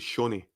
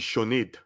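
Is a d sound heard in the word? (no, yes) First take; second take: no; yes. First: No d sound is pronounced in the word. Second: A d sound is pronounced in the word. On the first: The speaker calls it right. "The the D is silent. ... you say Shawnee" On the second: The speaker calls it wrong. "So you don't say Shawnade"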